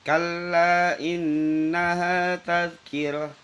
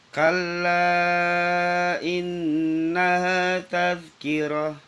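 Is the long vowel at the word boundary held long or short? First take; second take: short; long. First: The vowel before innaha is held briefly. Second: The vowel before innaha is stretched out long. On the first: "Satu alif seperti Matobi" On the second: "dibaca lebih panjang lagi, dua setengah alif atau lima harokat"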